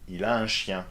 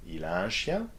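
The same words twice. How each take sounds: First: Said in the usual way. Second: "chien" rises into a question; rising intonation. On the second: Shown as a demonstration. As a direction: ask by lifting "chien". (intonation montante sur « chien ») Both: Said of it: "rising intonation".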